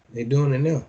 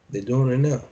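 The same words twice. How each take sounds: The two takes are said the same way.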